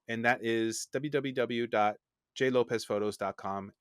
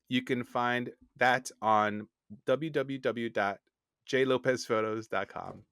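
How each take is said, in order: First: It is said at normal, quick speed. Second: It is said slowly, like a robot.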